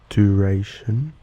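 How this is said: It is said in an American accent. "The American way to say them would be"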